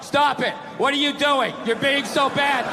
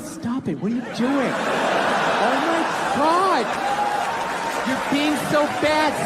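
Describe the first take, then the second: First: It is said in a flat, lifeless tone. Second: It is said in a playful, teasing tone.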